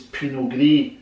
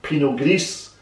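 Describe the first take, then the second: First: The final S of Gris is silent. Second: The final S of Gris is pronounced. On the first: The speaker calls it right. "that's how it's pronounced" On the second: The speaker calls it wrong. "they might pronounce the S at the end"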